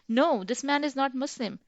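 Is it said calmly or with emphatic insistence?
emphatic insistence. It is said with strong, insistent emphasis.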